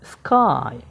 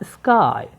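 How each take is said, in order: No difference in how they are said.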